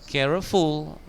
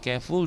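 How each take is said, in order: First: The word is said with three syllables. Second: The word is said with two syllables. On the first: The speaker calls it wrong. "Kalau tiga syllable" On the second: The speaker calls it right. "dua syllable"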